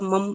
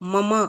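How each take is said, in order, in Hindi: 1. अंतिम स्वर छोटा काटा गया है। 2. अंतिम स्वर लंबा खींचा गया है। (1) "ये मुझे थोड़ा सा मम सुनाई दिया" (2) "जो ममा"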